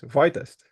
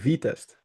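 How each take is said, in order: First: The first syllable sounds like 'vie'. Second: The first syllable sounds like 'vee'. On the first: The speaker calls it wrong. "because it's an I, everybody says" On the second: The speaker calls it right. "then it would be everybody would pronounce it correctly"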